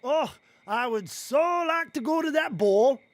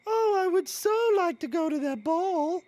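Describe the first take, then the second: First: Louder hammed-up silly girl voice; funny voice. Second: Put-on high, breathy-free dreamy girl voice; wistful princess sigh; Cinderella voice. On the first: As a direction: overplay the longing, comically. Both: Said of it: "do your funny voice".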